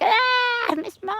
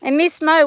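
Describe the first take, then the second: First: Very high, falsetto mock leer; imitating men in an Australian pub; pub men's leer. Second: Said in the usual way. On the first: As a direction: ham up a leering pub bloke. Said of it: "They would just be like".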